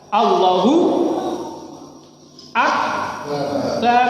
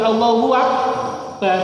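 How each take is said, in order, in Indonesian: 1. u dan a tetap terpisah, tidak ada bunyi w. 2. Ada bunyi w yang menyambungkan kedua kata. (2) "nggak boleh"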